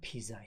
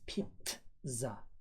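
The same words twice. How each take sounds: First: The middle consonant is a plain z sound. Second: The middle consonant is a ts sound. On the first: The speaker calls it wrong. "it is not pizza" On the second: The speaker calls it right. "it is pizza"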